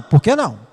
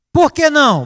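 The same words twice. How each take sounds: First: Said in the usual way. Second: Put-on child protesting. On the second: A child protesting his father's no, high whine. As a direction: whine the question like a kid.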